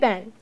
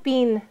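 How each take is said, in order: First: The vowel is short, like in 'Ben'. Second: The vowel is long, like in 'bean'. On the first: "I say Ben" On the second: "If you drive about 8 hours north of me to Canada, people say"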